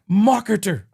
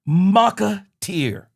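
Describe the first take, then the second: First: The word is said in a plain accent. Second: The word is said with a French accent.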